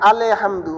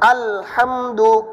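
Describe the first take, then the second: First: There is a bump and extra vowel after 'al'. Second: 'Al' joins smoothly into 'hamdu' without a bump. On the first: The speaker calls it wrong. "আল বলতে একটা বাড়ি খায়" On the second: The speaker calls it right. "বাড়ি হবে না"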